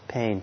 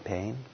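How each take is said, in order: First: The word sounds tight, strained and averse. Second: The word sounds calm, loose and easy. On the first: The experience is being resisted. The speaker calls it wrong. "you're kind of like bending under the burden of it and full of aversion" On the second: The experience is simply accepted. The speaker calls it right. "in a very relaxed way saying pain"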